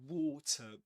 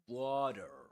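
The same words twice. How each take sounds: First: It is said with a British accent. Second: It is said with an American accent.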